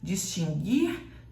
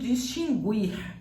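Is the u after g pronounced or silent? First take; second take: silent; pronounced. First: The u after g is silent. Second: The u after g is pronounced aloud. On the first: The speaker calls it right. "o mesmo som de seguir" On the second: The speaker calls it wrong. "a pessoa pronunciando distinguir"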